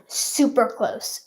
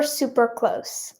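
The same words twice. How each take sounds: First: Said in the usual way. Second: Slow, soft unvoiced whisper. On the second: Real, not acted. Vlogger hinting to viewers that they are nearly there, whispered. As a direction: breathe the words out slowly, no voice. Whispered repeat of guess hint.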